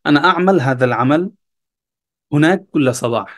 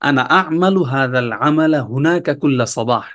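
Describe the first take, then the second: First: The final vowel endings of the words are dropped. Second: The words keep their final vowel endings.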